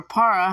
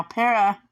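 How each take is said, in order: First: Para said as PAH-ruh; alternate pronunciation. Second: Para said as PAIR-uh; alternate pronunciation. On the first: App reviewer offering another way to say it, Para as PAH-ruh. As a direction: say Para with an open "ah" first vowel, like PAH-ruh. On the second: App reviewer trying a name for viewers, Para as PAIR-uh. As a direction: say Para with an "eh" first vowel, like PAIR-uh. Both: Shown as a demonstration. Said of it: "however you say it".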